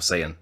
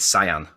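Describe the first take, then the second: First: It is said unlike the colour word cyan. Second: It is said like the colour word cyan. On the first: The speaker calls it right. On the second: The speaker calls it wrong.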